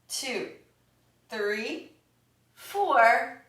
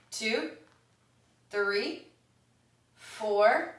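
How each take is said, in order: Both takes have the same delivery.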